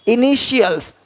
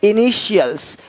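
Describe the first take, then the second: The two takes are said the same way.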